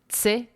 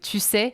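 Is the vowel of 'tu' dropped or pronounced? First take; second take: dropped; pronounced. First: The vowel of 'tu' is dropped entirely. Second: The vowel of 'tu' is fully pronounced. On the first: "on prononcerait même t'sais" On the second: "au lieu de tu sais"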